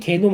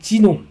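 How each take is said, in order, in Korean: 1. 이 단어는 'gae' 소리로 시작해요. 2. 이 단어는 'ji' 소리로 시작해요. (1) "지씨 개놈 하면 좀 이상하지 않습니까?" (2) "그렇기 때문에 지놈이라고 얘기를 해서"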